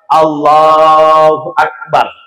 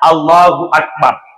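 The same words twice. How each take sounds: First: The phrase is said slowly and drawn out. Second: The phrase is said quickly and briefly. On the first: The intention is being made while saying it. "yang agak-agak lama" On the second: The intention was already made before raising the hands. "begitu sebentar saja"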